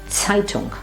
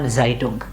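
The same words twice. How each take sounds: First: The first sound is a ts sound. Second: The first sound is a plain s. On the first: The speaker calls it right. "we have Zeitung" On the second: The speaker calls it wrong. "and not Zeitung"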